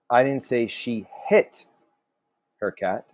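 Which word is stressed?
hit. The stress falls on the word hit. She did something else to the cat. "So maybe she did something else"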